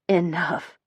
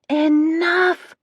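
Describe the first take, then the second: First: It is said in a soft tone. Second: It is yelled very loudly.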